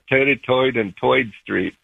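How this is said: It is said in a Brooklyn accent.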